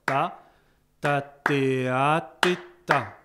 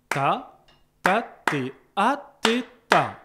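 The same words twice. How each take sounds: First: Loud chant with the tied note held long; sustained version. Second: Loud chant ta, ta, té, a, té, ta; chanted rhythm. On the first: Teacher chanting the tied bar, holding the note. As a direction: hold the a as the tied note rings. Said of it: "un instrument qui peut faire durer". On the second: Teacher chanting the tied bar, short notes. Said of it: "ça va être". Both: Shown as a demonstration.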